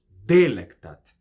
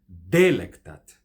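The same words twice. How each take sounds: First: The stress is on the first syllable. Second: The same.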